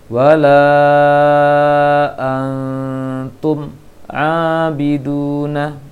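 The voice stops after the m before abiduna. The speaker calls it wrong. "jangan terputus bacaan mim dengan ainnya ... yang keliru"

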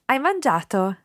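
The voice rises at the end. It asks whether the person has eaten. "You tend to raise your voice slightly"

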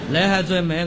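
It is said with Cantonese-style pronunciation.

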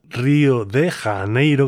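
The name is pronounced with Spanish sounds. "como se suele pronunciar en castellano"

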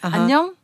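It is said with a greeting intonation. It means hello. "Привет"

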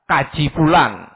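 The first word begins with a k sound.

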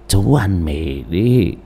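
It is spoken in a weak, raspy old voice. "Đổi giọng thành khều khào"

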